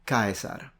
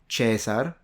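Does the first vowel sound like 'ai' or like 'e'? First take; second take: ai; e. First: The first vowel is the diphthong 'ai'. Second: The first vowel is a plain 'e'. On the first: This is the classical Latin pronunciation. "I, like in Caesar" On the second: This is the ecclesiastical Latin pronunciation. "That one becomes E in ecclesiastical Latin"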